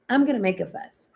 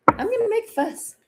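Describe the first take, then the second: First: Said in the usual way. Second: Tiny, very high put-on voice; high-pitched mock fuss. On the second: Declaring a readiness to disrupt, high put-on squeak. Playfully voicing a refusal to keep quiet.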